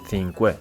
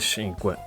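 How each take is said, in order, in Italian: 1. La parola inizia con un suono th. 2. La parola inizia con un suono s sibilante. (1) "con una interdentale simile a quella dell'inglese" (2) "con la S"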